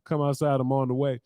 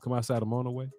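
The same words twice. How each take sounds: First: The phrase is said at a normal pace. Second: The phrase is said quickly.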